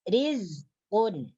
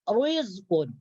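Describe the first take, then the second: First: The r is pronounced thin and light. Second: The r is pronounced thick and heavy. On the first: The speaker calls it right. "ra yang berbaris kasra wajib dibaca nipis" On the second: The speaker calls it wrong. "jangan dibaca ... Itu salah. Karena itu ditebalkan"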